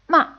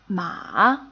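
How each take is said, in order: First: The pitch falls quickly and fades. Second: The pitch falls and then rises. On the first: "a short, quickly falling and fading tone" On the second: "a falling and then rising tone"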